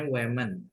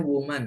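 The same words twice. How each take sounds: First: "women" read as WE-men. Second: "woman" read as WU-man. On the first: Teacher explains spelling with E, "women" pronounced WE-men. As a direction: give "women" an eh sound in the first syllable. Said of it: "kalau E bacanya women". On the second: Teacher explains spelling with A, "woman" pronounced WU-man. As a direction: give "woman" an oo sound in the first syllable. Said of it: "A itu bacanya woman ya". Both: Shown as a demonstration.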